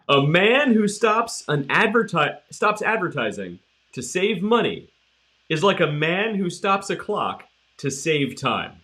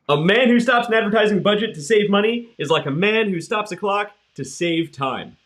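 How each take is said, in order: First: It is said more slowly. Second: It is said at normal speed.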